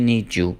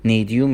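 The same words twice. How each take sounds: First: "need you" blended into "nee-joo"; "need you" with a j in the middle; linked sounds. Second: Said in the usual way. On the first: Shown as a demonstration.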